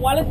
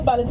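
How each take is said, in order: First: The name starts with a W sound. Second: The name starts with a B sound. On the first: This is the original English name. "The W was changed to V in Spanish" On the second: The V sound was then said as B. "V is pronounced as B"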